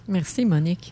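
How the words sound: The thanks sound flat and unenthusiastic. The speaker calls it wrong. "tu n'avais pas de l'air satisfaite dans le ton de voix"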